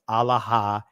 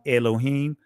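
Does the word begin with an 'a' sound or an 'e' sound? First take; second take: a sound; e sound. First: It begins with an 'a' sound. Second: It begins with an 'e' sound. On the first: This is the ancient Hebrew pronunciation. The speaker calls it right. "The ancient Hebrew actual pronunciation is alahayam" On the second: This is the modern Israeli pronunciation. The speaker calls it wrong. "in the Israeli, it's pronounced Elohim"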